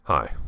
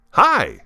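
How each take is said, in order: First: Said in the usual way. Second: Hi. said much higher and louder; a big lively Hi; bright hi. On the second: Shown as a demonstration. Teacher showing the lively Hi. against the flat one. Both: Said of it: "Do you hear the difference?".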